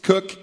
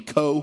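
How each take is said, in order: First: The name ends in a k sound. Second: The name ends in a long o vowel. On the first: The speaker calls it right. "nope, it's Cook" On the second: The speaker calls it wrong. "I was pronouncing the name Co"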